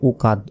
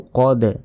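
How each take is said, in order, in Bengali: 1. শেষ ব্যঞ্জনের আগে একটি স্বরধ্বনি বসানো হয়। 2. শেষ দুটি ব্যঞ্জন কোনো স্বরধ্বনি ছাড়াই পাশাপাশি বসে। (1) "আমরা অনেকে বলি উকাদ" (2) "উকাদ নয় উকদ"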